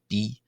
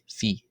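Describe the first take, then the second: First: The letter name begins with a b sound. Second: The letter name begins with an f sound. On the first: "some people will pronounce this letter as the letter B" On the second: "others will pronounce it as the letter phi"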